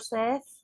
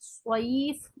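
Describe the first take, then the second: First: The vowel sounds closer to 'e'. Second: The vowel sounds closer to 'ee'. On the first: The speaker calls it wrong. "ये मजहूल आवाज़ है" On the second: The speaker calls it right. "मारूफ आवाज़ है"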